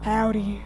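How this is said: It is said in a put-on scary voice.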